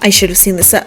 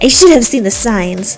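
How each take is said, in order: First: It is said in the speaker's own voice. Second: It is said in a put-on Terezi voice.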